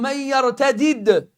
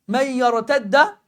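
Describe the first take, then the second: First: The two d sounds are split by a vowel. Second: The two d sounds merge into one doubled d. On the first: "tu remets deux del" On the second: "ils ont fusionné et ça donne un ad"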